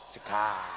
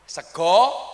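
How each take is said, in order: First: The final vowel sounds like A, Ngapak style. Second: The final vowel sounds like O, Jogja style.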